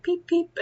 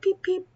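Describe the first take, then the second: First: High squeaky chick peeps; chick peeping. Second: Very high tiny peeps; chick peeping. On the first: Imitating her pet chick's peeps. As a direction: chirp it like a baby chick. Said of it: "she was always like". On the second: Imitating the pet chick peeping again. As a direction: squeak it like a chick. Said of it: "she'd be like". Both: Retold or imitated.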